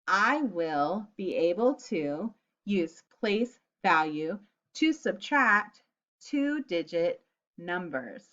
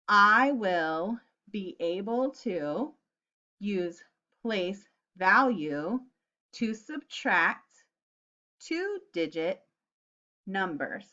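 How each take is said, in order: First: It is said a little faster. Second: It is said very slowly.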